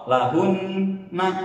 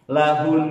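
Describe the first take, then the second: First: It ends with a short vowel after n. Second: It ends on a long held n sound. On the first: The speaker calls it wrong. "jangan lahunna" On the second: The speaker calls it right. "lahun, tetap ditahan dua harokat"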